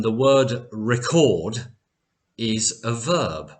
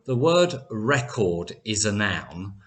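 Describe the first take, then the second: First: "record" said re-CORD; verb stress on second syllable. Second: "record" said REC-ord; noun stress on first syllable. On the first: Teacher explains the verb to learners, "record" stressed at the end. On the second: Teacher explains the noun to learners, "record" stressed at the front. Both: Shown as a demonstration. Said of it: "can you hear the difference".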